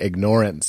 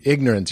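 First: It is said with the word ignore heard inside. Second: It is said as the ordinary word ignorance. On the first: The speaker calls it right. "You should say ignorance. It's ignoring truth" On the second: The speaker calls it wrong. "you shouldn't say ignorance"

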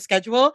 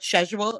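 First: The word is said in an American accent. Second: The word is said in a British accent. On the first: "instead of schedule" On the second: "she mastered in a British accent was that they say the word schedule"

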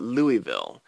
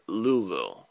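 First: The name is said the way outsiders say it. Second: The name is said the way locals say it. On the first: The speaker is not from the city. The speaker calls it wrong. "people outside of there call it Louisville" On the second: The speaker is from the city. The speaker calls it right. "when you're from there, you call it Louisville"

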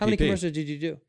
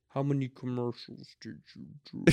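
First: It is said at a normal speed. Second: It is said very slowly.

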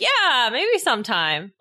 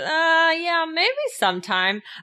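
First: The voice sounds bright and cheerful. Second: The voice sounds flat and reluctant. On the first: The lack of interest is hidden. "it may not be that obvious, like with their intonation, because they may be trying to hide it" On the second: The lack of interest is obvious. "I think I was a little too obvious"

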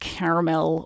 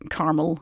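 First: Caramel is said with a British pronunciation. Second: Caramel is said with an American pronunciation.

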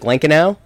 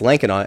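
First: The last syllable has an 'ow' sound. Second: The last syllable has an 'aw' sound. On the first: The speaker calls it wrong. "in the past I've said like Lankinaw, because like in German, AU makes that ow sound" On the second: The speaker calls it right. "But no, it's Lankinaw"

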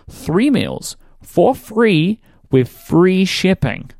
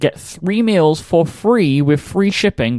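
First: It is said more slowly and deliberately. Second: It is said at a normal speed.

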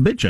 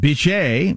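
First: The name ends with no final vowel sound. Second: The name ends with a pronounced 'ay' vowel. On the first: The speaker calls it right. "but the E is silent. It's actually pronounced Bitch" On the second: The speaker calls it wrong. "I was going to pronounce it Beeshay because it's B-I-T-C-H-E"

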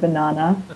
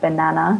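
First: It is said in an Australian accent. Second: It is said in an American accent. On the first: "instead of banana" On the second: "I'm getting better at my American accent, so I'm starting to say things like banana now"

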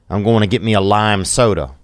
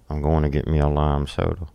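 First: It is said at normal volume and pace. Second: It is muttered quietly and quickly under the breath.

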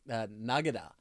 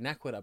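First: The middle consonant is a 'g' sound. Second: The middle consonant is a 'kw' sound. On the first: This is how the subtitled show said it. "but pronounced it Nagada" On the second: This is the usual way the word is said. "the way we say Nakwada"

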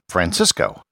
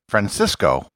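First: The middle consonant is a plain s sound. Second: The middle consonant is a lisped th sound. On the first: The speaker is a local Colombian. "The Colombians would pronounce it" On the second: The speaker is from Spain. "with the Spanish lisp"

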